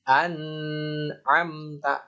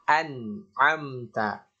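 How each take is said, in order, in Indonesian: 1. Bunyi n kabur, tidak jelas. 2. Bunyi n diucapkan dengan jelas. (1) "Bukan an'amta. An'amta. Ini keliru" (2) "An. Ya, an"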